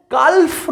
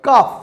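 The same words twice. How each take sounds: First: কালফ said wrongly with the L sounded, as kalf; wrong pronunciation. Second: কাফ said correctly as kaf, with a silent L; correct pronunciation. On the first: Teacher showing pupils the wrong way to say কালফ, with the L sounded. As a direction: sound the L in কালফ to show the mistake. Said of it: "কালফ নয় কিন্তু". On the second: Teacher showing pupils the right way to say কাফ, with a silent L. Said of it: "L will be silent". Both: Shown as a demonstration.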